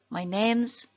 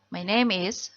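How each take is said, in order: First: The words 'name is' are contracted to 'name's'. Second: The words 'name is' are said in full.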